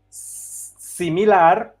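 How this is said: The word is pronounced the Spanish way. "In Spanish we say similar"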